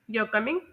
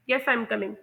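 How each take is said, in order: First: "You're coming?" as a question, pitch climbing on coming; questioning rise through "You're coming?"; rising pitch. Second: "Yes, I am coming" as a confirming statement, falling on coming; settled downward tune on "Yes, I am coming"; falling pitch. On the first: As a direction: let coming lift at the end. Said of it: "मेरी pitch जो है वो rise". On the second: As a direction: let coming drop to close the answer. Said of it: "ये एक falling pitch का". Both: Shown as a demonstration.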